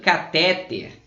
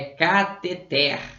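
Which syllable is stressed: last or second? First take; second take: second; last. First: The stress is on the second syllable. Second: The stress is on the last syllable. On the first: The speaker calls it wrong. "A galerinha fala muito catéter" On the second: The speaker calls it right. "É cateter"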